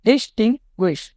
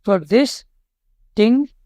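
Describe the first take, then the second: First: डिस्टिंग्विश said whole at near-normal speed, falling; डिस्टिंग्विश said whole as one word. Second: डिस्टिंग्विश drawn out slowly, syllable by syllable, rising at the end; split into syllables. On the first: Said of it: "three syllable word है". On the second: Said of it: "डिस्टिंग्विश को आपको कैसे तोड़ सकते हो". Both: Shown as a demonstration.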